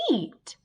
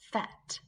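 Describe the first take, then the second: First: The vowel is said long, saying its name. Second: The vowel is said short, like in 'bet'. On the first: The speaker calls it right. "It can say its name" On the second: The speaker calls it wrong. "does that sound like a word you know?"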